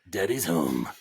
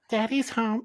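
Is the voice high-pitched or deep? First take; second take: deep; high-pitched. First: It is said in a lower character voice. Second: It is said in a squeaky, high voice.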